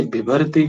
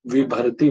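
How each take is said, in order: First: विभर्ति begun with a breathy भ, as bhibharti; aspirated first sound. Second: विभर्ति begun with a plain ब, as bibharti; deaspirated first sound. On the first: Teacher shows students the unchanged form, aspirated first sound. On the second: Teacher shows students the changed form, deaspirated first sound. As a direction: say विभर्ति as bibharti, only the second consonant aspirated. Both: Shown as a demonstration. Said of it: "विभर्ति को विभर्ति बना देता है".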